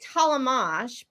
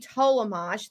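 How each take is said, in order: First: The first vowel is a short ah sound. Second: The first vowel is a long O sound. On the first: "I use it as a short ah" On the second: "like an, a long O"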